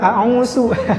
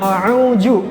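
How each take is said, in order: First: The middle consonant is an s. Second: The middle consonant is a j. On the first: "diganti dengan sin juga" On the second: "Biasanya jim"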